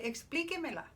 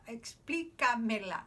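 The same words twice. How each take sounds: First: Explíquemela with a clear e in que, pitched a bit up; Explíquemela spoken as que-me-la; formal command Explíquemela. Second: Explícamela with a clear a in ca, slower; Explícamela spoken as ca-me-la, deliberate; corrected to Explícamela. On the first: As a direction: say Explíquemela, the usted form, with e after qu. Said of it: "So they're gonna say". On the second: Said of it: "I'm sorry". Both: Shown as a demonstration.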